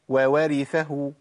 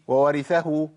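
First: Two separate w sounds are heard at the start. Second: The two w sounds merge into one. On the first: The speaker calls it right. "فين يا عم الواوين؟ وو" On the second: The speaker calls it wrong. "ما قلتش"

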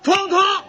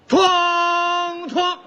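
First: The gong sound comes quickly, rushing the count. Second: The gong sound comes slowly, lagging the count. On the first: "这不快了吗？" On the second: "你太慢了。"

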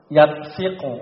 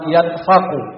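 First: The vowel after f is i. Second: The vowel after f is a.

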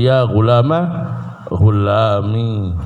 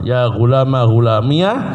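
First: The final ya ends with no added vowel. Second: The final ya ends with a short 'a' vowel. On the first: "ya-nya dipakai dan disukun" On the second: "ya-nya dipakai di fathah"

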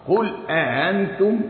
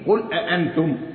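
First: The second glottal stop is softened and eased. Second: The second glottal stop is fully pronounced. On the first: "تسهيل" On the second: "تحقيق"

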